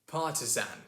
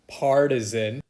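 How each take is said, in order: First: The R sound is dropped. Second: The R sound is clearly pronounced. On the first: "the way that this guy says partisan" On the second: "the R is pronounced"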